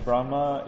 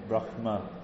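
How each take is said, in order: First: The word has no guttural h sound. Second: The word has a guttural h sound. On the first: The speaker calls it wrong. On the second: The speaker calls it right.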